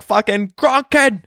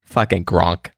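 First: High-pitched Boston holler, mock yell; Boston accent call-out. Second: Low, understated Boston name-drop; Boston accent. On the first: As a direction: hail someone across a crowd in Bostonian. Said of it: "Dude, I was like". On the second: Acted. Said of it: "you do, you do that accent".

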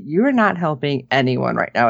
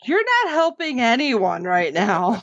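First: Said in the usual way. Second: "you're not helping anyone right now" pitched up and stretched; "you're not helping anyone right now" as a lifted, emphatic reproach; emphatic insistence. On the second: Retold or imitated. Insists again after listener's objection.

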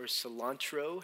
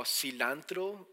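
First: CILANTRO said "suh-LAHN-tro"; alternative pronunciation. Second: CILANTRO said "sih-LAN-tro"; first pronunciation. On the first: Preacher offering the other way to say the herb's name, "cilantro" as suh-LAHN-tro. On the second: Preacher offering one way to say the herb's name, "cilantro" as sih-LAN-tro. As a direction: say "cilantro" with a short, flat A in LAN. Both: Shown as a demonstration. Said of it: "however you wanna say that".

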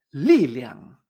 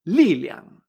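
First: "liliang" with a falling li and a light liang; liliang, fourth tone then neutral. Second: "liliang" again, louder, falling li and light liang; liliang, louder, fourth then neutral; louder repeat. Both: Shown as a demonstration. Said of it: "Poder en chino se dice liliang".

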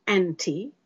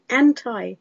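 First: "anti" ending in "ee": AN-tee; first pronunciation. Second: "anti" ending like "tie": AN-tie; second pronunciation. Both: Shown as a demonstration. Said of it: "Is it anti or is it anti?".

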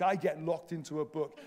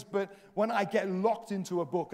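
First: "I get locked into a book" dropped lower and softer; quiet echo. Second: "when" leaned on, the rest plain; preacher repeating a line, weight on "when"; stress on when. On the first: Preacher echoing his own line, lower and softer. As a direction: repeat it low, like an afterthought. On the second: Plain first take before the echo. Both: Shown as a demonstration.

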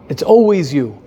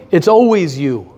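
No difference in how they are said.

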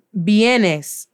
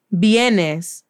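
The two takes are said the same way.

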